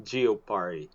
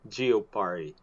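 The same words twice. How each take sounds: First: It is said with a French accent. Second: The same.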